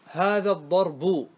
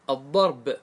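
First: Slow الضرب ending in an audible -u, "ad-darbu"; full final damma. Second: Slow الضرب stopped on b, "ad-darb"; pausal sukun. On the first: Teacher giving students the voweled example, full final damma on الضرب. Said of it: "الباء إيش عليها؟ ضمة". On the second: Teacher showing students how to pause, الضرب as "ad-darb". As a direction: stop on the final b of الضرب with no vowel. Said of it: "قف عليه". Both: Shown as a demonstration.

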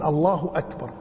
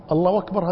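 First: أكبر opened with a firm glottal stop; proper hamza. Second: أكبر as wakbar, joined to الله; waw for hamza. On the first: Old man states the right form, hamza sounded. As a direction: separate الله and أكبر cleanly. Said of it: "الدين الله أكبر". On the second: Old man rejects the muezzin's form, w glide. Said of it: "هذه مو دين". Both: Retold or imitated.

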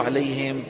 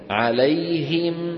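First: عليهم said short as "alay-hem"; wrong "hem" ending. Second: عليهم chanted very slowly as "alay-him"; clear "him" ending. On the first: Teacher shows students what not to say, lax "hem" ending. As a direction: slacken the last vowel of عليهم toward e. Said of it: "لا تقولوا عليهم". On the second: Teacher corrects students' ending, slow chanted "alay-him". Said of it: "مين قال عليهم؟". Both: Shown as a demonstration.

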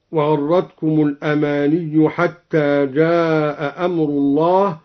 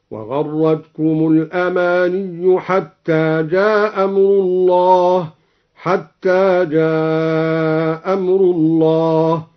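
First: Said in the usual way. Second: جاء أمر said as "ja amru" with one hamza dropped, chanted slowly; slow chant, drop one hamza between جاء and أمر. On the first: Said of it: "قرأ بإسقاط الهمزة". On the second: Shown as a demonstration. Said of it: "قرأ بإسقاط الهمزة على القصر والمد هكذا". (تلاوة بإسقاط الهمزة)

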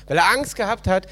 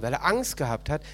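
First: Angst pressed out louder; emphatic repeat. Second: Said in the usual way. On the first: Shown as a demonstration. Preacher repeats the servant's fear, louder and emphatic. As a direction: hammer home the fear. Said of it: "repeated quieter before". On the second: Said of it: "repeated louder".

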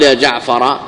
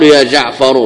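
First: جعفر said with final fatha, ya jaʕfara; wrong vowel ending. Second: جعفر said with final damma, ya jaʕfaru; correct vowel ending. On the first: Teacher voicing the wrong vocative for students, ending جعفر in a. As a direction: end جعفر on a short open a, jaʕfara. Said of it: "لا يقال". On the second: Teacher giving students the correct vocative, ending جعفر in u. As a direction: close جعفر on a short u, jaʕfaru. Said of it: "إنما يقال". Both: Shown as a demonstration.

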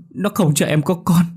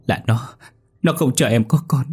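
First: Much higher, near a wail; wife insisting on the doll, high frantic cry; panicked repeat. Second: Desperate pleading. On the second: Wife blaming the doll. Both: A narrator's reading.

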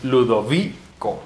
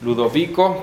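First: Ludovico slowly, lu-do-VI-co; stress on second-last syllable. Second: Said in the usual way. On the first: Shown as a demonstration. Teacher demonstrates the accent rule, Ludovico with long VI. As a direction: stretch VI in Ludovico, then a detached co. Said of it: "grave, acentuación grave". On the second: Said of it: "Todas tienen acento".

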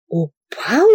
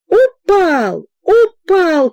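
First: Hoarse questioning. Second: High, loud excited yells; crowd shouting. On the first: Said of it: "прохрипел генерал". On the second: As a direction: call out the news from all sides. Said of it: "кричали со всех сторон". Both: A narrator's reading.

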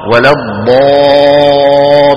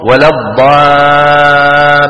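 First: ولا الضا chanted very slowly, the alif pressed up, full and heavy. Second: ولا الضا chanted very slowly with a thin alif; wrong light alif after ض; beginner's thinned alif. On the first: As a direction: correct heavy alif after ض. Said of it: "بضغط صوتها إلى قبة الحنك". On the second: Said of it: "عم يرقق الألف". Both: Shown as a demonstration.

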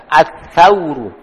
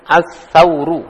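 First: As-sauru spoken slowly, opening with the tha sound; slow model of the sa sound. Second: Said in the usual way. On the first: Shown as a demonstration. Teacher slowly models the tha sound for the class. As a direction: stretch As-sauru out so the sa is clear. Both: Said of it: "pakai sa".

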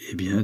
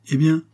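First: Said in the usual way. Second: "eh bien" higher and louder, rising; questioning EH BIEN. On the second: Acted. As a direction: ask "eh bien" as an expectant prompt. Rocambole breaks in, asking for more. (« eh bien » interrogatif, montant)

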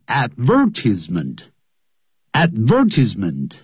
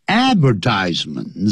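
First: Advertisement said the British way, stress on the second syllable, ad-VER-tis-ment; British pronunciation. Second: Advertisement said the American way, stress on the third syllable, ad-ver-TISE-ment; American pronunciation. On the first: Teacher shows students the British advertisement, stressed on VER. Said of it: "如果是英国人". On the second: Teacher shows students the American advertisement, stressed on TISE. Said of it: "重音在第三音节". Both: Shown as a demonstration.

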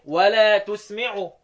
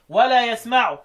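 First: تسمعوا with the ت sound, recited slowly; reading with taa; Ibn Amir reading. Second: يسمعوا with the ي sound, recited; reading with yaa; the other readers' reading. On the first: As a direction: start تسمعوا with ت, open and drawn. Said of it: "ابن عامر يقول إيه". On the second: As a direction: start يسمعوا with ي. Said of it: "سوى ابن عامر الشامي ... يقول إيه". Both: Shown as a demonstration.

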